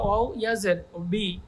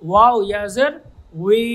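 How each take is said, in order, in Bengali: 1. শেষ দলটি 'ব' ধ্বনি দিয়ে শুরু হয়। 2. শেষ দলটি 'ওয়' ধ্বনি দিয়ে শুরু হয়। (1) "এটা আহ, ভুল রং উচ্চারণ" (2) "সঠিক উচ্চারণটা আমি করছি"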